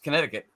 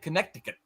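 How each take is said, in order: First: The middle c is silent, as usually said. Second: Every letter is sounded, including the middle c. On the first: This is the usual way of saying it. "it's Connecticut" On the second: It helps with remembering the spelling. "that's kind of reason I say it Connecticut"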